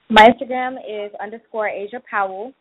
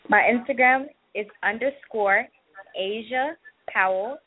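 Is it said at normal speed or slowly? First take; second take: normal; slowly. First: It is said at a normal pace. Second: It is said more slowly.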